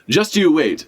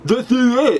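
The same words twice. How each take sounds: First: It is said in a plain, normal voice. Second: It is said with the tongue stuck out.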